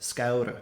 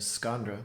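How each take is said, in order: First: The n is dropped, giving a double vowel. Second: The n is pronounced before the r. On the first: It is a Munster regional form. "you hear the scaura, scaura instead" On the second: It follows the spelling. "instead of saying scandra, which you might think it should sound like"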